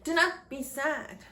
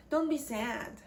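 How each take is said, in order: First: "not" in "Do not be sad" said separately and lifted higher; full form, not stressed. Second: Said in the usual way. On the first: Shown as a demonstration. Teacher reading the example clause, stressing "not". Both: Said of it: "There is an exemplary clause".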